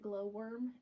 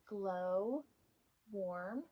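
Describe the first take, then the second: First: The second part sounds like worm. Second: The second part sounds like warm. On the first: The speaker calls it wrong. "I kept calling it Glowworm and then realizing it was wrong" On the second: The speaker calls it right. "I pronounced it correctly"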